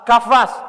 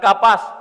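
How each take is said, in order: First: The middle consonant is an f sound. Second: The middle consonant is a p sound. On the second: "Bukan kapas"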